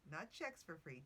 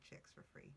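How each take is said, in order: First: Said in the usual way. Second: Whispered. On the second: Shown as a demonstration. Podcaster whispering the lyric as a cheeky joke. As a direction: whisper "chicks for free" softly, no voice. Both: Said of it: "wordplay contrast".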